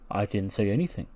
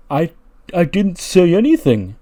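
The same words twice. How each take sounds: First: Low, very soft acted denial; quiet denial. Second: Higher, louder hammed-up protest; baffled protest. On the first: Keith answering his teacher's question, quietly denying it. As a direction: murmur it, lower and much softer. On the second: Keith defending himself after the teacher's tirade, high-pitched protest. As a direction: protest haltingly, then push the pitch up.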